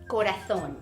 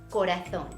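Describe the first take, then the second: First: The z is said with a th sound, Spain-style. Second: The same.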